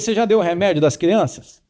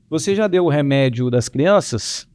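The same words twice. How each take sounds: First: It sounds irritated and accusing. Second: It sounds calm and gentle. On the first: The speaker is blaming the listener for forgetting again. The speaker calls it wrong. "tá cobrando" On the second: The speaker is simply asking, without blame from the past. The speaker calls it right. "eu não levei o tom de voz"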